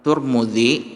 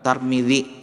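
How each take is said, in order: First: The first two syllables have the vowel u. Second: The first syllable has a, the second i. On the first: "boleh dibaca dengan Turmuzi" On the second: "boleh dibaca dengan Tarmizi"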